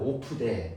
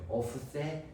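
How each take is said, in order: First: The second consonant is a plain d sound. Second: The second consonant is a th sound. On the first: "우리나라 말로 오프데" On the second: "언어적 표현으로 오프세"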